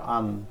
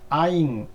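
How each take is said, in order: First: It is said with a plain vowel, like 'an'. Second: It is said with a gliding vowel, like 'aing'. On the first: "남부 쪽에는 안이라고 발음을 해요" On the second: "북부 쪽에는 아잉이라고 발음을 하고"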